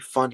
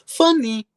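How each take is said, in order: First: The word is said flatly, like a statement. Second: The word is said loudly, like an exclamation. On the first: The speaker calls it wrong. "I can't say funny" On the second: The speaker calls it right. "I have to exclaim it"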